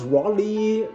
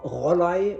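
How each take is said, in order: First: The name is said in an anglicized way. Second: The name is said in a German way. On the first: The speaker calls it wrong. "it's not pronounced Rolly, what I often hear" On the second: The speaker calls it right. "It's ro- Rollei"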